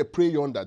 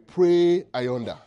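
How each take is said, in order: First: Said in the usual way. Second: "Pray ayonder" stretched very slow and louder; solemn, dragged-out "Pray ayonder"; drawn-out emphasis. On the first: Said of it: "The word there". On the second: Shown as a demonstration. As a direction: lean hard into "Pray ayonder". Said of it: "The word there, "pray yonder".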